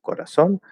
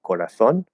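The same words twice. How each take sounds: First: The z is said with an s sound. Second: The z is said with a th sound. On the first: This is how people from Latin America say it. "instead of corazón" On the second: This is how people from Spain say it. "like corazón"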